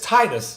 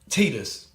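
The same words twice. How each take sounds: First: The first syllable does not sound like 'tits'. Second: The first syllable sounds like 'tits'. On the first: The speaker calls it right. "But it's Titus, apparently" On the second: The speaker calls it wrong. "I'm reading it like tits on a bull"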